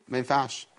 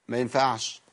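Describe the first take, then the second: The two takes are said the same way.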